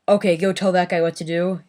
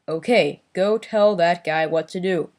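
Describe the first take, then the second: First: Each word is spoken naturally and relaxed. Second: Each word is articulated with exaggerated care. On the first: "instead of saying" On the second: "No over enunciating. ... it'll be like"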